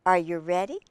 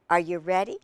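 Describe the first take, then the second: No difference in how they are said.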